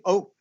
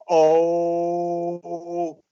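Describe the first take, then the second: First: It is said short and weak. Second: It is said long and strong.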